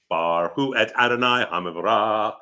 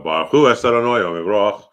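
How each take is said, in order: First: It is said with a Sephardic Hebrew pronunciation. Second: It is said with an Ashkenazi Hebrew pronunciation.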